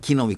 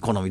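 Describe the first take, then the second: First: The word is read as kinomi. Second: The word is read as konomi. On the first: "通常は木の実" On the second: "どっちもあるじゃんね"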